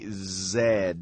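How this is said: The letter is said as zed. This is the British way. "In British English, they say Z"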